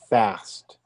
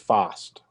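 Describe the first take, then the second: First: The word is said in an American accent. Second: The word is said in a British accent. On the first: "In the United States, we say fast" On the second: "In England, they say fast"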